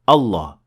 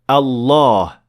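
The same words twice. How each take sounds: First: The vowel after the double L is cut short. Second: The vowel after the double L is held long. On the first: The speaker calls it wrong. "We don't say Allah" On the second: The speaker calls it right. "We say Allah. ... There is definitely an alif here with a natural med of two harakat"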